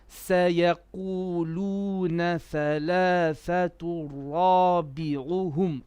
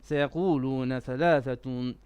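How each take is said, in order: First: It is recited slowly, every letter clear. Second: It is recited fast, skipping through letters.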